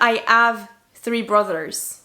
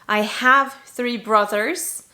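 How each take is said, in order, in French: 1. Le h au début de 'have' est omis. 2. Le h au début de 'have' est prononcé. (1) "la plupart des gens, du coup, vont dire" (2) "vous avez bien entendu le have"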